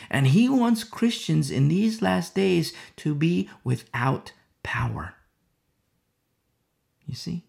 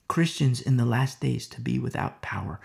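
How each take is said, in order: First: Whispered warning. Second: Said in the usual way. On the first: Acted. Preacher warning the church what Satan wants, whispered. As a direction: breathe it like a secret threat.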